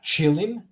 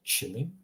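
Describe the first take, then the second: First: "chilim" higher, with a heavy hard ch; "chilim" opening on tongue-to-palate hard ch; wrong hard ch. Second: "chilim" quieter, with a light soft ch; quiet "chilim" opening on soft consonant. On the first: Teacher showing what not to say, hard ch in "chilim". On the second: Teacher correcting for learners, soft ch in "chilim". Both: Shown as a demonstration. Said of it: "not chilim".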